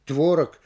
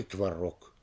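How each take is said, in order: First: "творог" stressed on ТВО; stress on first syllable. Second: "творог" stressed on РОГ; stress on last syllable. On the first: Lecturer offering wavering variants, first-syllable "творог". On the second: Lecturer offering wavering variants, end-stressed "творог". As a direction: move the beat to РОГ in "творог". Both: Shown as a demonstration. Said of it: "как будет правильнее произнести".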